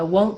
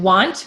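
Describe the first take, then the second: First: The vowel is a long O sound. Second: The vowel is an open ah sound. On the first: The speaker calls it right. "you want a long O" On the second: The speaker calls it wrong. "I'm hearing want, which is ah"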